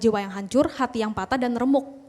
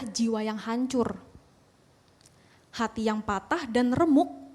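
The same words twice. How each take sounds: First: The phrase runs on, breaking after 'remuk'. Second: A full break falls after 'hancur'. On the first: The broken heart ends the first sentence. The speaker calls it wrong. "Biasanya kita bacakan begini" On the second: The broken heart begins the next sentence. The speaker calls it right. "Rupanya cara baca gini teman-teman"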